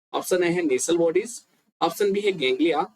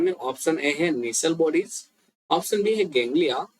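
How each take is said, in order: The two takes are said the same way.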